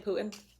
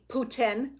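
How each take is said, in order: First: The T sound in the middle is dropped. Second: The T sound in the middle is clearly pronounced.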